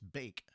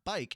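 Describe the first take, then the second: First: The vowel sounds like 'ay', as in bake. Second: The vowel sounds like 'eye', as in bike. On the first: The speaker calls it right. "it's bake" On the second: The speaker calls it wrong. "we've been saying it wrong this entire time"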